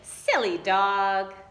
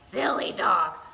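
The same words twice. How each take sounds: First: It is said in a girl's voice. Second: It is said in a gruff troll voice.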